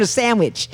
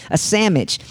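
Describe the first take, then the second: First: Said in the usual way. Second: Sandwich said as "SAM-mitch"; slangy "sammich". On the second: Shown as a demonstration. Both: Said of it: "two entirely different things".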